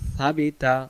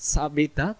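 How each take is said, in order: First: The first sound is a soft lisped 'th'. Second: The first sound is a hard hissing 's'. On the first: The speaker calls it right. "জিহ্বাটার আগা থেকে" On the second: The speaker calls it wrong. "একটু আওয়াজ দিয়ে পড়তে যাব ... তখন সিন হয়ে যাবে"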